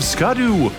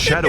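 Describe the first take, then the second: First: The name begins with an 'sk' sound. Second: The name begins with an 'sh' sound. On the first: The speaker calls it wrong. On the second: The speaker calls it right.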